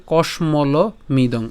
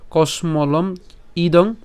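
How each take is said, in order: First: কসমল মিদং said slowly with the break before মিদং; alternative split. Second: কসমলম ইদং said slowly with a break before ইদং; split pronunciation. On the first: Teacher showing the other way to say it, slow. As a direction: join the ম to মিদং, slow and clear. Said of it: "অথবা উচ্চারণ কেমন হবে?". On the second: Teacher showing one way to say the word, slow. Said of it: "তার উচ্চারণটা কেমন হতে পারে?". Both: Shown as a demonstration.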